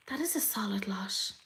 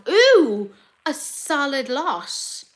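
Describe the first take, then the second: First: Very soft, impressed whisper; hushed, voiceless appreciation; awed whisper. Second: Slow, drawn-out words, pitched up; slow, high appreciation; impressed. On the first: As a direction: whisper it to yourself in awe. Same words repeated in awed whisper. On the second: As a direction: stretch it out, impressed. Impressed by the list of brands. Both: Real, not acted.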